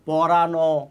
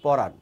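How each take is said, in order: First: The word ends with an added final vowel sound. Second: The word ends on the bare final consonant. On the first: The speaker calls it wrong. "কিন্তু পরানো না তো" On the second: The speaker calls it right. "উচ্চারণটা হচ্ছে পরাণ"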